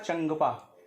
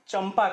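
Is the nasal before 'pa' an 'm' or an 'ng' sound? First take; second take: ng; m. First: The nasal before 'pa' is an 'ng'. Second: The nasal before 'pa' is an 'm'. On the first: The speaker calls it wrong. "जो कि अशुद्ध है" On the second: The speaker calls it right. "यही सही भी माना जाता है"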